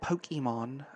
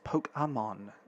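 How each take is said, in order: First: The vowel after the k sounds like 'ee'. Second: The vowel after the k sounds like 'ay'. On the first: This is how Americans say it. The speaker calls it wrong. "it's not Pokemon, Americans" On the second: This follows the accent on the e. The speaker calls it right. "There's an accent above the e"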